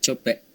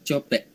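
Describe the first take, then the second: Both takes have the same delivery.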